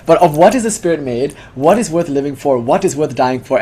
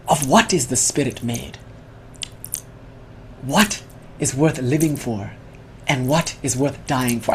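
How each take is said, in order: First: Said in the usual way. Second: Soft, slow mock Spanish accent with long pauses; hushed and unhurried, a lightly Spanish-accented philosopher; quiet Spanish-accented musing, slow and grave. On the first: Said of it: "I forget one of the four questions". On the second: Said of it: "he says in his mock Spanish accent".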